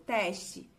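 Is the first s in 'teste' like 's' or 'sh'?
s. The s before the t sounds like s. This is how the northern region says it. "aqui a gente fala"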